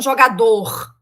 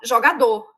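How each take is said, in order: First: The final R is clearly vibrated. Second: The final R is barely pronounced. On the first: This is the official pronunciation of R. "ele é vibrante" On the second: This is how Brazilians actually say it. "É um R quase impronunciável"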